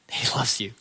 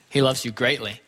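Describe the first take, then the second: First: An unvoiced hush, tender and close; whispered reassurance. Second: Said in the usual way. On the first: Real, not acted. Preacher whispering to the congregation that God loves them. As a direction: drop to a whisper to comfort them.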